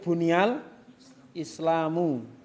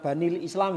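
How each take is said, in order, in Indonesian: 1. Vokal pertama adalah u. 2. Vokal pertama adalah a. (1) "Tapi buniyal Islamu" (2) "bukan dibaca banil Islam ya"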